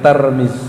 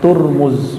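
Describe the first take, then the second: First: The first syllable has an a vowel. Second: The first syllable has a u vowel. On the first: "bukan Tarmiz" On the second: "bukan Turmuz"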